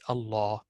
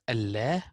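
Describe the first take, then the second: First: The L is heavy and full. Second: The L is light and thin. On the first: The speaker calls it right. "will be Allah" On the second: The speaker calls it wrong. "Not Allah"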